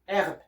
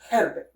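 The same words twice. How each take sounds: First: The word starts with no H sound. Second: The word starts with an audible H sound. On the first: The speaker calls it right. "So you don't hear the H here" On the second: The speaker calls it wrong. "You don't say herb"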